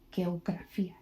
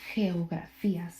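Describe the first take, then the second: First: The first sound is a hard g. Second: The first sound is a breathy h. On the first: The speaker calls it wrong. "You wouldn't say geografía" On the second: The speaker calls it right. "You would say geografía. So be pronounced as an H"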